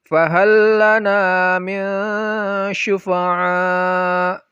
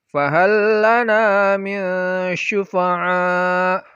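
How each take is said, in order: Both takes have the same delivery.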